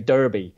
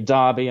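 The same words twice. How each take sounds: First: The place name is pronounced the American way. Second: The place name is pronounced the British way. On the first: "I know the Americans say Derby" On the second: "The Brits say Derby"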